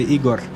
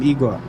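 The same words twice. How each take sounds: First: The name has a Croatian pronunciation. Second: The name has a plain English pronunciation. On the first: "In Croatia, you would say Igor" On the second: "Let's call him Igor"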